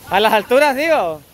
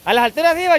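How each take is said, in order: First: Said in the usual way. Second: Repetido más alto y fuerte; más fuerte y agudo. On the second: Real, not acted. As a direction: subiendo la voz al repetir. (repetido más alto)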